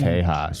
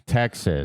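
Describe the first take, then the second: First: The middle consonant is a breathy h sound. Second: The middle consonant is a ks sound. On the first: "he's just pronouncing it the traditional way" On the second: "It's Texas"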